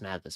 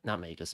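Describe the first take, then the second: First: The first syllable sounds like 'mag' in magazine. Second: The first syllable does not sound like 'mag'. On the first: The speaker calls it right. "Mag. Magazine, okay?" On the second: The speaker calls it wrong.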